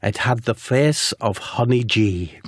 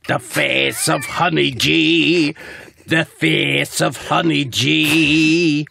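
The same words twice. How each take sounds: First: Slow, deliberate reveal; dramatic reveal. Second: Very slow and drawn out, higher, building; dramatic echo. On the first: Narrator revealing the dastardly beast's face, slowly and deliberately. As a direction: let the name land slowly. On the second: Narrator repeating the beast's horrifying face, slow rising melodrama. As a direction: wail it out like a horror refrain. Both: Acted.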